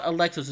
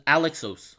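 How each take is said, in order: First: Alexos stressed on the second syllable, uh-LEK-sohs; wrong name take. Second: Alexos with a full open first vowel, AL-ek-sohs; corrected name take. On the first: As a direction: say Alexos with a weak first vowel. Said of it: "It's not Alexos". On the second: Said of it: "it's Alexos". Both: Shown as a demonstration.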